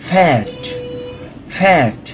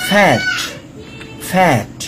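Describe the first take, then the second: Both takes have the same delivery.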